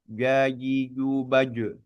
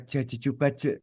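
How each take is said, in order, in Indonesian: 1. Bunyi j dibuat dengan tengah lidah. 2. Bunyi j dibuat dengan ujung lidah. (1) "ketika pengucapannya lidah tengah, dia pengucapannya mestinya" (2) "Itu sebetulnya lidah ujung yang kita ucapkan Jajijubaje itu"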